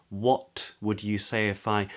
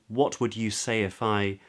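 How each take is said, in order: The two takes are said the same way.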